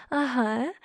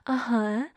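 Both takes have the same delivery.

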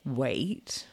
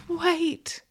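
First: Low, soft "wait" with a rising end; probing question. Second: High-pitched, tentative "wait"; a high little attempt to stop someone approaching; pleading attempt. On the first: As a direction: probe with a low, quiet, questioning echo. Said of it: "I probe". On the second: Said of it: "you attempt as I walk towards you". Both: A narrator's reading.

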